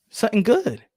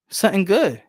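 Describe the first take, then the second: No difference in how they are said.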